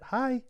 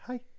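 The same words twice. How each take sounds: First: The hi is drawn out and longer. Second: The hi is short and clipped.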